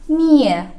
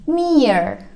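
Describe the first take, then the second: First: It is said British-style with no R sound. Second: It is said American-style with an R sound. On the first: "kalau untuk yang Britishnya R-nya hilang" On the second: "Tapi kalau untuk Americannya uh, R-nya dijelaskan"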